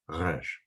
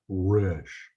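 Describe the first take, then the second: First: The R is made in the back of the throat. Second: The R is made with the lips, English style. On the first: The speaker calls it right. "pronounced in the back of your throat" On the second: The speaker calls it wrong. "It's not Resh, pronounced with the lips"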